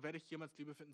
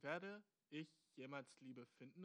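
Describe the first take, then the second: First: Said in the usual way. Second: Slow, spaced-out reading of the question; word by word. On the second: Shown as a demonstration. Host picks apart the listener's words, reading slowly. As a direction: set out each word deliberately. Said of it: "einfach so diese vier Wörter".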